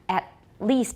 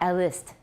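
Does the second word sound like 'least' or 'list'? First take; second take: least; list. First: The second word sounds like 'least' with long vowel. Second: The second word sounds like 'list' with short vowel. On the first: The speaker calls it right. "At least, not a list" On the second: The speaker calls it wrong. "not a list"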